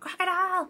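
The word is shouted loudly.

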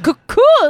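It is said with a fancy French accent. "just like a fancy French person"

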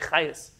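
The name is said in Ashkenazi Hebrew pronunciation.

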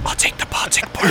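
It is spoken in a whisper. The order is kept secret from others.

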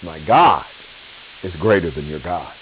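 The word greater carries the main stress. The point is how great the Lord is. The speaker calls it right. "it's emphasis on the greatness of the Lord"

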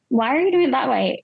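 The tone sounds curious and open. The speaker genuinely wants to understand the reason. The speaker calls it right. "if you're curious about why someone's doing something"

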